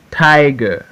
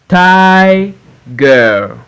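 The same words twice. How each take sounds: First: Said in the usual way. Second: TI held high, pause, GER; syllable by syllable. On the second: Shown as a demonstration. Teacher reading for pupils to repeat, Tiger broken as TI-GER. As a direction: Tiger split into two drawn-out beats. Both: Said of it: "we are in two syllables word".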